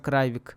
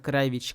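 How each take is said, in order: First: The name ends with a 'k' sound. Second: The name ends with a 'ch' sound. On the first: This ignores the Serbian pronunciation. "Телбо Деннис произносит его как Кравик, произносится Кравик" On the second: This follows the Serbian pronunciation. "произносится Кравич, как в сербском языке"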